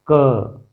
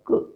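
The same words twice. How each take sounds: First: क said as a full ka with an open a; consonant with vowel. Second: क as a clipped k with the mouth not opened and no a after it; bare consonant sound. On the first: Teacher showing students क with the a sound included. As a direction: open the mouth and let क ring as ka. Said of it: "क में अ शामिल है". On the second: Teacher showing students क with halant, mouth closed. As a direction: stop क dead, no vowel escaping. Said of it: "मुंह बिल्कुल नहीं खोलेगा". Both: Shown as a demonstration.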